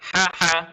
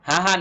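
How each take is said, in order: First: The h comes from deep in the throat. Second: The h is a plain, light breath. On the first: The speaker calls it right. "গলার ভেতর থেকে হা হা" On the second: The speaker calls it wrong. "অনেকেই বলে হা হা, হা হা না"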